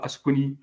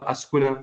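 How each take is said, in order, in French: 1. Le mot se termine par la voyelle i. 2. Le mot se termine par la voyelle a. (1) "c'est pas Askuni" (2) "C'est pas Askuna"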